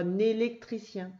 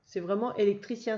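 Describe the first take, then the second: First: "un électricien" with the n carried over, heard as "nélectricien"; "un électricien" with the liaison, so it sounds like a word beginning with n. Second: "électricien" with no n sound before it, starting on a clean vowel "é"; "électricien" as the word is spelt, with no liaison n in front; the word alone. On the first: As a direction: link the n of "un" onto "électricien", like "un-nélectricien". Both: Shown as a demonstration. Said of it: "je fais la liaison quand je dis électricien".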